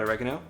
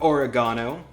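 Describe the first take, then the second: First: It is said with an American pronunciation. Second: It is said with a British pronunciation.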